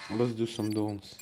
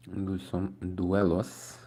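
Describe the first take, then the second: First: Said in the usual way. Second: "duelos" said slowly as a jokey Spanish-style word, rising at the end; playful duelos. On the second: Shown as a demonstration.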